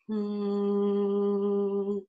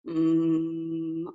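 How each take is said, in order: First: The hum buzzes forward at the lips. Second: The hum resonates back in the throat. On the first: The speaker calls it right. "a hum where you feel more forward focus" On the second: The speaker calls it wrong. "I'm feeling a lot in my throat there"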